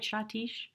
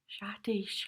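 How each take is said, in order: First: "Shatish?" retried with a ch at the start, chaa-teesh, rising; name retried as a question. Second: "Shatish" said with a soft sh at the start, shaa-teesh; name said carefully. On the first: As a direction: check the name "Shatish" again, ch sound, asking. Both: Real, not acted. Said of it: "am I saying that right?".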